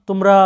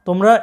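Both takes have the same delivery.

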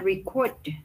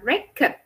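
First: The stress is on the second syllable. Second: The stress is on the first syllable. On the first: It is a verb meaning to record sound. "Nhưng khi nó là động từ thì lại đọc là record" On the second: It is a noun meaning a recorded disc. "Danh từ record là đĩa thu âm, đọc là record"

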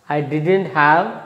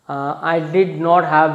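First: Did and not are contracted into one word. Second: Did and not are said as separate words. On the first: "becomes contracts and becomes I didn't have" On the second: "in past tense we should say as I did not have"

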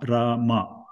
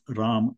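First: The final vowel is fully pronounced. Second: The final vowel is dropped. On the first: "the full Ma" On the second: "you always pronounce Ram in Hindi"

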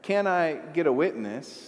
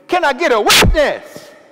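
First: It is said in a calm, conversational tone. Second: It is said in a passionate, preacher-like tone. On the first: It is a plain, everyday request. "in a relatively conversational tone like that" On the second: It calls for fervent agreement from a crowd. "if I would change posture and tone"

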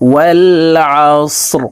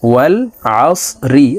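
First: The word ends on a bare r, no vowel. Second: The word ends with an i vowel after r. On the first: The reader stops at the end of the verse. "রকে ওয়াকফের ক্ষেত্রে সাকিন করে ফেলবো, তখন শব্দটি এইভাবে পড়তে হবে।" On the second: The reading continues without stopping. "ওয়াল আস রজের রি"

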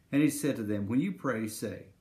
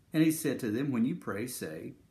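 The two takes are said the same way.

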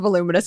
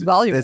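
First: The word is said plainly, without conviction. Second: The word is said forcefully, with conviction. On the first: The speaker calls it wrong. "it's not voluminous" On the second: The speaker calls it right. "if you say it with conviction"

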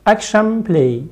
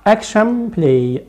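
The two takes are said the same way.

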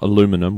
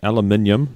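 First: The word is said with four syllables. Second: The word is said with five syllables. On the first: This is how other people say it. The speaker calls it wrong. "not aluminum" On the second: This is how the speakers themselves say it. The speaker calls it right. "We say aluminium"

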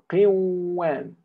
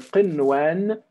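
First: The n sound is merged into the w. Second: The n sound is pronounced clearly before w. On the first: The speaker calls it wrong. "If we were to apply the rule of إضغام, we would say" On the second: The speaker calls it right. "We say قنوان"

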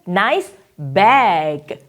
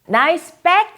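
First: The vowel in bag is drawn out longer. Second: The vowel in bag is short and clipped. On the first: The speaker calls it right. "약간 길어지죠" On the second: The speaker calls it wrong. "nice bag 아니고"

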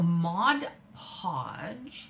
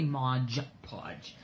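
First: The first word ends in a plain 'd' sound. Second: The first word ends in a 'j' sound. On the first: The speaker calls it right. "so I said it right" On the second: The speaker calls it wrong. "I always want to say Modge Podge"

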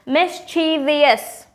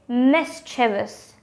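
First: The word is said with four syllables. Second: The word is said with three syllables. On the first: The speaker calls it wrong. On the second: The speaker calls it right. "With just 3 syllables"

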